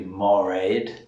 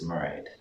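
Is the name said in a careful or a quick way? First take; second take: careful; quick. First: The name is said carefully with every sound full. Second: The name is said quickly with sounds reduced. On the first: "if you really pronounce it right, it's actually" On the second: "just saying it quickly"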